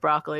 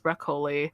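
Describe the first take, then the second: First: It is said with a standard American pronunciation. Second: It is said with a Filipino-accented pronunciation. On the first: The speaker calls it right. "could not pronounce as broccoli" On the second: The speaker calls it wrong. "It was broccoli"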